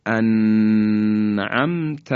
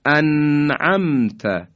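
First: انعمت with the nun stretched and held before ع; wrong held nun. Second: انعمت with the nun clear and unheld, an'amta; correct izhar. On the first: Teacher showing students the wrong held nun in انعمت. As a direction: hold the nun of انعمت too long, as the error. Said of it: "مثلاً بگیم". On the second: Teacher giving the correct recitation after the mistakes. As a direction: say انعمت cleanly, nun sounded then straight to ع. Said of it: "اینم صحیح نیست". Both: Shown as a demonstration.

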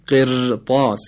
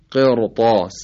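First: قرطاس with a thin, trilled r; wrong light ra. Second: Louder قرطاس with a thick, dark r; weight the r in قرطاس; heavy ra. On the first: Teacher showing what is not pronounced, thin r in قرطاس. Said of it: "تلفظ نمیشه". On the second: Teacher showing the correct reading, heavy r in قرطاس. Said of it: "خود ر هم تفخیم بشه". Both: Shown as a demonstration.

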